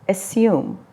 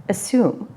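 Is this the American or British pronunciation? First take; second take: British; British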